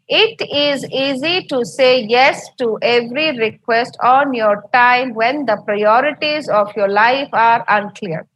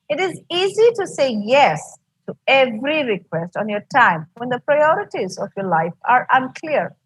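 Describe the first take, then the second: First: Every word gets equal weight, without expressive phrasing. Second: Key words are stressed, with pitch changes and pauses.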